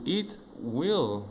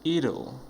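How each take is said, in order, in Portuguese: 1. As duas palavras são ditas por completo e separadamente. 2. As palavras se juntam em uma só palavra reduzida. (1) "Full form" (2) "fica bem esquisitinho"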